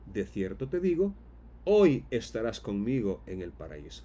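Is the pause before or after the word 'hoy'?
before. The pause comes before the word hoy.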